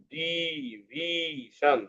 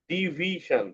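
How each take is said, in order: First: ডিভিশন stretched very slowly and softly, beat by beat; drawn out syllables. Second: ডিভিশন said syllable by syllable, softly; split into syllables. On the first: Teacher showing pupils, slow soft syllable split of ডিভিশন. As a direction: pull ডিভিশন apart into di, vi, shan, slowly. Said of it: "তিনবার". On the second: Teacher to class, sounding out ডিভিশন in syllables. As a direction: break ডিভিশন into its three beats di-vi-shan. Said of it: "ডিভিশন কয়বার বললাম". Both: Shown as a demonstration.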